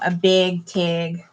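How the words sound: The words are said in a Minnesotan accent.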